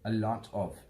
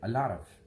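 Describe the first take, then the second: First: Each word is said fully and separately. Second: The words are linked and reduced together. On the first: "it is a lot of" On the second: "But how Americans say it"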